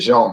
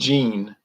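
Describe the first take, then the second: First: The name is said with a French pronunciation. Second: The name is said with an English pronunciation. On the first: This is how the name's owner says it. The speaker calls it right. "actually he pronounces it Jean" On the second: This is how most people say the name. The speaker calls it wrong. "the English pronunciation"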